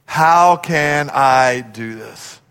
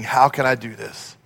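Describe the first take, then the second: First: Low, drawn-out questioning; very slow, heavy, helpless question; slow doubt. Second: Low, soft self-questioning; hushed, low, doubtful question; quiet doubt. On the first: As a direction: stretch each word out, at a loss. Repeats doubting question, much slower. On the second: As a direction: ask it softly, unsure of yourself. Acted doubting question, first take. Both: Acted.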